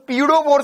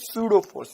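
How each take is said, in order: First: The word begins with a P sound. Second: The word begins with an S sound. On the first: The speaker calls it wrong. "अब sir पी से शुरू, तो ये तो पीडो force हो गया" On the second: The speaker calls it right. "पी silent है ना, तो एस से बोलेंगे"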